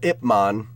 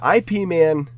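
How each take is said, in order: First: The first part is said as one word. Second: The first part is spelled out as two letters. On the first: The speaker calls it right. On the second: The speaker calls it wrong.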